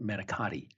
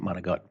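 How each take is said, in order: First: It is said the general American way. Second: It is said the Italian-American way.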